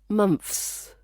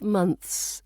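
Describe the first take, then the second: First: The th sound is replaced by an f. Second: A light th sound glides into the s. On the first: The speaker calls it wrong. "Russian speakers sometimes replace it with f" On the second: The speaker calls it right. "bite your tongue just slightly for the th, then slide into s without pausing"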